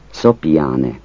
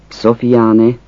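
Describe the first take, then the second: First: Szopiáne with a p, Szo-pi-á-ne; Szopiáne variant. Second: Szofiáne with an f, So-fi-á-ne; Szofiáne variant. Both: Shown as a demonstration. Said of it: "Azt a kiejtés változatot".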